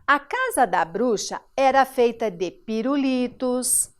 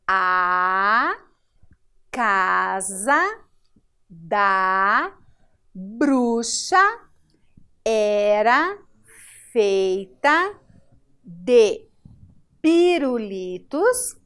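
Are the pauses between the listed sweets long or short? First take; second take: short; long. First: It is read fluently with short pauses. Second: It is read slowly with long pauses. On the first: "com uma outra fluência; é uma pequena pausa" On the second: "aqui nós lemos até mais pausado"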